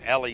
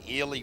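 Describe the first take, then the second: First: The name begins with a short 'e' sound. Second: The name begins with a long 'ee' sound. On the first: The speaker calls it right. "Apparently it's Ellie" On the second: The speaker calls it wrong. "I've been calling him Ely for years"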